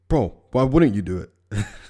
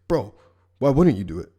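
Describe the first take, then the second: First: It is said in a plain, calm way. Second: It is said with intense, passionate feeling.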